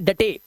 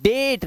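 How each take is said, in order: First: It is two syllables with the final e sounded. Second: It is one syllable with a long 'ay' vowel. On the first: The speaker calls it wrong. "ना कि डटे" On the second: The speaker calls it right. "इसलिए तेरे ये बोलते हैं डेट"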